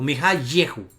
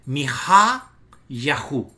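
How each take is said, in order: First: "Mi Ha Yehu" with an "e" in "Yehu"; "Ye" variant. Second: "Mi Ha Yahu" slow, with "Ha" drawn out; stress on HA. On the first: Teacher offering the alternative reading, "Ye" pronunciation. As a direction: say "Yehu" with "ye", not "ya", after "Mi Ha". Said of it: "es decir, Ye". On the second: Teacher showing which syllable is accented, stressing "Ha". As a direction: lean on "Ha", pause, then "Yahu" with an "a". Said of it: "se acentúa la sílaba que dice Ha". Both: Shown as a demonstration.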